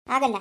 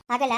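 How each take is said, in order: Both takes have the same delivery.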